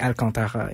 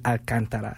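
First: The name is said in a French accent. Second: The name is said in a plain English accent.

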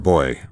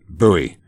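First: The word sounds exactly like 'boy'. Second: The word does not sound like 'boy'.

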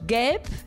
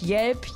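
First: The word begins with a hard g sound. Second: The word begins with a y sound.

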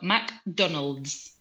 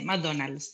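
First: It is said the English way, keeping the final D. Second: It is said the Spanish way, dropping the final D.

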